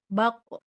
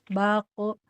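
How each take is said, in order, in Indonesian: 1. Konsonan itu ditekan dan dipantulkan dengan kuat. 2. Konsonan itu ditekan lemah, hampir tidak memantul. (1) "karena memang ada tekanan" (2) "kalau sama ibu nggak ditekan kuat"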